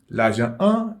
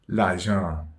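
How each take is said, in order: First: The article is said as a separate sound. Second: The article is linked into the noun's nasal vowel. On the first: The speaker calls it wrong. "nous pas dire" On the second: The speaker calls it right. "mais nous dit"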